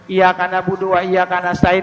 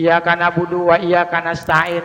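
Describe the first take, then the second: No difference in how they are said.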